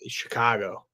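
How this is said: The A vowel is stretched only slightly. This is how it sounds normally. "How do I say it regularly? ... I stretch the A a little bit"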